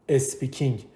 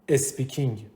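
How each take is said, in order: Both takes have the same delivery.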